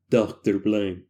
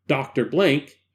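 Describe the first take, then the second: First: Low, put-on doctor voice; trying a doctor voice. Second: Said in the usual way. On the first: Shown as a demonstration. Narrator trying out a voice for Doctor Blank, low put-on voice. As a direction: drop well down to test a character voice. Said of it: "I'm going to try to do different voices".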